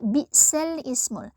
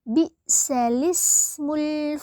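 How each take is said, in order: First: A glottal stop is heard before 'ism'. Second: No glottal stop; 'l' links straight into 'ism'. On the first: The speaker calls it wrong. "sekilas pasti kita membacanya dengan bacaan bi'sal ismul" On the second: The speaker calls it right. "dalam bacaan naqlnya ini dibaca menjadi"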